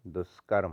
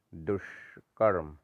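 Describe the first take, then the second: First: दुष्कर्म joined, as "duskarm"; lighter sibilant. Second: दुष्कर्म split slowly after "dush"; wrong heavy sh. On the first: Teacher correcting it, दुष्कर्म with light sibilant. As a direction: say दुष्कर्म with s-like sound. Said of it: "होता है". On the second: Teacher showing the error, दुष्कर्म slow with heavy sh. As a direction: hold a retroflex sh in दुष्कर्म. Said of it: "गलत है". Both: Shown as a demonstration.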